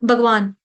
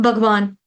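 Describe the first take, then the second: Both takes have the same delivery.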